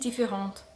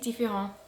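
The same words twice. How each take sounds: First: The final T sound is pronounced. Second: The final T sound is silent. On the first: The speaker calls it wrong. "I got that wrong because I pronounced the T indifferent" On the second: The speaker calls it right. "Yay, got it"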